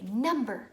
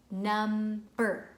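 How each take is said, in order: First: "Number" said whole, loud, falling; whole word blended. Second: "Number" broken into two loud beats; split into syllables. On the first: Child answering with the whole word. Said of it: "and they'll say". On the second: Parent chopping a word into syllables for a child. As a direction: clap out "Number" in parts. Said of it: "So you could go". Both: Shown as a demonstration.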